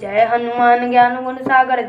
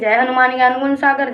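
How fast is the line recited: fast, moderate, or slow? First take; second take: slow; moderate. First: It is recited slowly, with every word clear. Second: It is recited a little faster but still clear. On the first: "शब्द शब्द आपके शुद्ध होना चाहिए, शुद्ध उच्चारण करिए" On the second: "थोड़ा तेज करिए"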